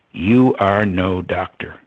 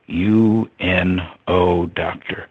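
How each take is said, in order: First: Said in the usual way. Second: U N O spelled as separate letters, very slowly. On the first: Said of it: "He looked at me and he said". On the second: Retold or imitated. Guru revealing the pun, letters U N O spelled out slowly. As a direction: spell out U N O letter by letter, then doctor. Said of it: "United Nations doctor".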